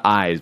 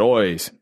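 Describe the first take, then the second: First: Said in the usual way. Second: "eyes" said as "oys"; Irish vowel. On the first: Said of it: "Not eyes, but eyes". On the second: Shown as a demonstration. Contrasting with usual vowel, "eyes" pronounced "oys". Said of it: "they say their eyes is eyes".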